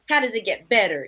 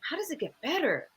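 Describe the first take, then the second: First: It sounds flat, like a statement. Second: It sounds curious, like a real question.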